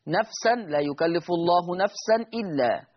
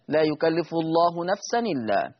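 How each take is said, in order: First: "نفسا إلا" parted by a glottal stop; slow recitation, nafsan then a clear hamza on "إلا"; before naql. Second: "نفسا إلا" glided as nafsanilla; slow recitation, no hamza between "نفسا" and "إلا"; naql. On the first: Teacher giving the verse before naql, "نفسا إلا" with hamza sounded. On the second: Teacher reciting the verse as Warsh, "نفسا إلا" joined by ni. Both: Shown as a demonstration. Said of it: "يقرأ ورش بالنقل".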